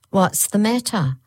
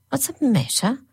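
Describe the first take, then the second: First: A little higher, falling flat repeat; second nurse repeating. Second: Higher, rising puzzled question; first nurse, puzzled. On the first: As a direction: echo her sister's question back. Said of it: "repeated the second one". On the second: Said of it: "said the first woman". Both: A narrator's reading.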